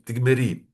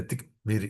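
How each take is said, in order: First: Tigmeri with a clear e in the second syllable, tig-ME-ri; correct Hebrew pronunciation. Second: Tigmiri with an i instead of e after the m, tig-mi-ri, shown as the mistake; mispronounced Tigmiri, the e swapped for an i; wrong pronunciation. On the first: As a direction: say tigmeri with a clear open e sound after the m, not an i. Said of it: "aqui vocês pronunciam meri". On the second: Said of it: "Não é tigmiri". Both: Shown as a demonstration.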